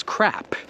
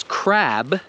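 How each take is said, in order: First: Crap ending on a crisp unvoiced P; teacher contrasting crab, ending crap on a hard P; final p unvoiced. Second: Crab with a voiced B at the end; teacher saying crab, ending on a clear voiced B; final b voiced. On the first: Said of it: "the other word is crap". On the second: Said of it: "hear and understand that one word is crab". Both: Shown as a demonstration.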